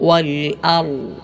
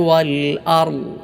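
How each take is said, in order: Both takes have the same delivery.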